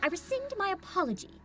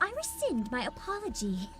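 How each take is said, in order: First: It sounds clipped and almost military, ending abruptly. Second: It sounds girly, like a Valley Girl.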